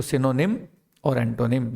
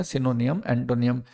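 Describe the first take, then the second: First: सिनोनिम ending in a short "nim"; teacher showing the right सिनोनिम; correct pronunciation. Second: Put-on सिनोनियम with an extra "iyam" ending, as kids say it; wrong pronunciation. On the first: Shown as a demonstration. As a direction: say सिनोनिम and एंटोनिम cleanly, no extra syllable. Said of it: "एन वाई एम का pronunciation नियम कैसे हो जाएगा". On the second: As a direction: mimic the common mistake सिनोनियम, एंटोनियम. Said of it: "अक्सर मुझे बच्चे बोलते हुए मिलते हैं".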